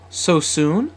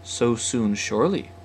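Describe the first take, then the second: First: Higher, rising startled question; surprised query, pitched up. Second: Calm, smiling answer in an even pitch; easy, settled confirmation; smiling reassurance. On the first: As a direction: ask it taken aback. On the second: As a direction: reassure with a gentle smile. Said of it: "said Sally smilingly". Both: A narrator's reading.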